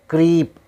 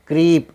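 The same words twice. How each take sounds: The two takes are said the same way.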